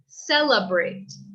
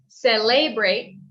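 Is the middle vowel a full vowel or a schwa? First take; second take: schwa; full vowel. First: The middle vowel is a weak uh sound. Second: The middle vowel is a full e sound. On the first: The speaker calls it right. "it's more of a u sound" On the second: The speaker calls it wrong. "instead of celebrate"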